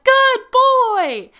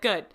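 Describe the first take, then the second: First: It is said with excited enthusiasm. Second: It is said flatly, without enthusiasm.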